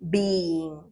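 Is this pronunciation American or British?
American. It is said with an American accent.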